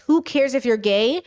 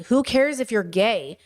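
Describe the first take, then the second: First: Centrist shrug. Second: Progressive dismissal. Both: Retold or imitated. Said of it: "Tonality differences".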